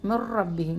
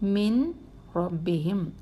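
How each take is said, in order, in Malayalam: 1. n ഇരട്ട r-ൽ ലയിച്ച് ഇല്ലാതാകുന്നു. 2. r-ന് മുമ്പുള്ള n വ്യക്തമായി ഉച്ചരിക്കണം. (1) "ഇങ്ങനെ പറയാവൂ" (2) "നിങ്ങൾ വെളിവാക്കി പറഞ്ഞ നൂനെന്ന് വെളിവാക്കിയേ"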